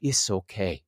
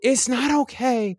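First: Low, soft imitated comforting; soothing reassurance. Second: High-pitched retold protest; upset retort. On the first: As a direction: drop low and quiet, as if patting someone's back. She pats him, reassuring. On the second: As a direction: push back in a raised, aggrieved pitch. His upset retort to her comfort.

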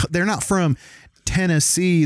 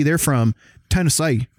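First: Said in the usual way. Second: Overdone Southern "Tennessee", ending "-say"; mock Southern twang. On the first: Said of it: "that's how they really talk". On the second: Mimicking how Southerners name their state, "Tennessee" in a Southern twang. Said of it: "overdo the twang like people do".

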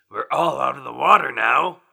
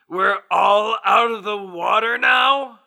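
First: Said in the usual way. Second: Incredulous. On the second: Acted. Incredulous echo of own line.

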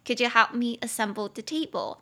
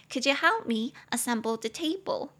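First: Said in the usual way. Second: Coy request. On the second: Acted. Asking a crush for help with a table, coy. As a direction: ask sweetly in a raised, put-on voice. Acted request, then teaching repeat.

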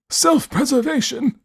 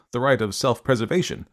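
First: Put-on high, slow, scornful old man echo; incredulous old man. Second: Said in the usual way. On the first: A narrator's reading. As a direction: repeat the word in cold disbelief. Host repeats, incredulous.

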